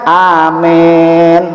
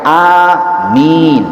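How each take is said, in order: First: The first vowel leans toward an e sound. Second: The first vowel is drawn out long. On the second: "a-nya panjang"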